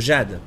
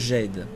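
First: The name is pronounced with a French sound. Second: The name is pronounced with an American sound.

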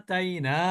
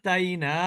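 Both takes have the same delivery.

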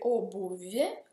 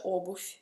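First: The word ends with a 'v' sound. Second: The word ends with an 'f' sound. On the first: This is how the word is written. "Si scrive obuvie con V" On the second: This is how the word is actually said. "ma si pronuncia obuf con la fe"

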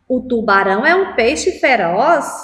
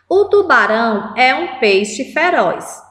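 First: It is said as a question, rising at the end. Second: It is said as a statement, falling at the end.

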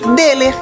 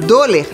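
First: The first vowel sounds like E. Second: The first vowel sounds like O. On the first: The speaker calls it right. "a pronúncia correta é Deler" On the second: The speaker calls it wrong. "a gente lê dollar"

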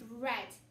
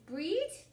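First: The vowel is a short 'e' sound. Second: The vowel is a long 'ee' sound. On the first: The speaker calls it right. "Or could it be bread?" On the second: The speaker calls it wrong. "That doesn't sound right"

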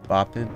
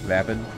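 First: The first vowel is an open 'ah' sound. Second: The first vowel sounds like the 'a' in cap. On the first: The speaker calls it wrong. "Soft A. Ah" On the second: The speaker calls it right. "You pronounce the vap like cap"

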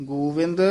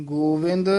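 Both takes have the same delivery.

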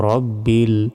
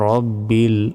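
No difference in how they are said.

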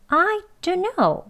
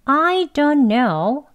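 First: I is stressed and don't know runs quickly. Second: It is said slowly with even weight on every word. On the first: "아니면 I만 강조해서요" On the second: "천천히 하는 문장으로 해볼게요"

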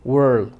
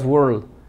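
The two takes are said the same way.

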